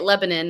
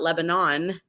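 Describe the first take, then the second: First: It is said the local American way. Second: It is said the usual, non-local way. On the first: This is how people there say the town name. The speaker calls it right. "we say it Lebanon" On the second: This is not how people there say the town name. The speaker calls it wrong. "not Lebanon"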